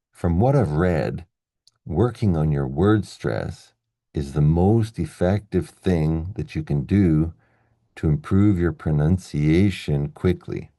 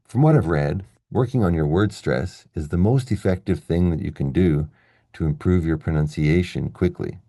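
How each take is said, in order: First: "what", "word stress", "most" marked clearly, slow; slow stress demo. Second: The same line at normal speed, stresses light; natural reading. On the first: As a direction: read it slowly, leaning on every stressed word. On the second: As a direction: read it naturally at speaking pace. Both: Shown as a demonstration. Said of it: "it sounds like this".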